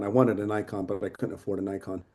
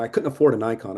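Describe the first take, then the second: First: Quiet. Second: Said in the usual way. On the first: Real, not acted. Repeats complaint, second time dropped.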